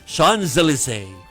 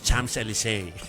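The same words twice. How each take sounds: First: It is said with a native French pronunciation. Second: It is said with a local Filipino pronunciation. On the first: This is how people in France say it. "Pero kapag nandun ka" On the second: This is how people at home say it. "yung sa atin"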